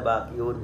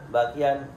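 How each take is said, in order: First: The word ends with the sound -un. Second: The word ends with the sound -an. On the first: The word is in the nominative case. The speaker calls it wrong. "Tidak boleh bakiun" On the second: The word is in the accusative case. The speaker calls it right. "Bakian dibaca nasab"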